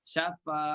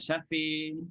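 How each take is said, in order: First: The final vowel is a plain open 'a'. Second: The final vowel is tilted toward 'i'. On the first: The speaker calls it right. "Syafa pun tak dibaca dengan" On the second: The speaker calls it wrong. "tak dibaca dengan uh, syafi"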